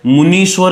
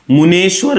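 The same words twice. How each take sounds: First: मुनीश्वर said with a long "nee" in the middle, the correct form; मुनीश्वर pronounced "mu-nee-shvar", the correct form; correct spelling form. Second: मुनेश्वर said with a clear short "ne" in the middle, the form being corrected; मुनेश्वर pronounced "mu-ne-shvar", the incorrect form; wrong spelling form. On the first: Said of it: "मुनीश्वर सही है". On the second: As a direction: say मुनेश्वर as "mu-ne-shvar", marking it as the mistake. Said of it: "मुनेश्वर गलत होता है". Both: Shown as a demonstration.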